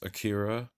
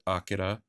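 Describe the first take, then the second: First: It is said with an English pronunciation. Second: It is said with a Japanese pronunciation.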